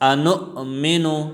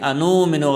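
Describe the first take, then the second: First: The glottal stop is clearly pronounced. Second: The glottal stop is dropped or blurred. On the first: The speaker calls it right. "अनुमिनु में हमज़ा ज़ाहिर करना चाहिए" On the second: The speaker calls it wrong. "अनुमिनु गलत है"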